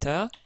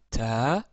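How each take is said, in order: First: The vowel is short. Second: The vowel is held long. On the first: "Ici, ça nous donne ta" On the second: "Si on rajoute euh, la voyelle longue alif"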